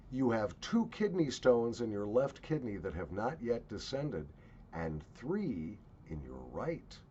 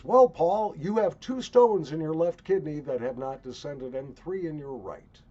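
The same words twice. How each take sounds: First: Lightly voiced medicine man, measured; understated imitation of a healer's pronouncement; medicine man's diagnosis. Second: Loud, high imitation of a doctor; mock urologist, pitched up and projected; urologist's announcement. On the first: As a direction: deliver a quoted diagnosis evenly, slowing at the end. Quotes medicine man's calm diagnosis. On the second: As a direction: announce the diagnosis loudly, like a quoted specialist. Quotes urologist repeating the diagnosis.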